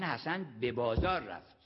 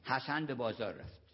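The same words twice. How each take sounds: First: The stress falls on بازار. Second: No word is given special stress. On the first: He went there and not somewhere else. "یعنی حمام نرفت" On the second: It is a plain statement. "یه جمله معمولی"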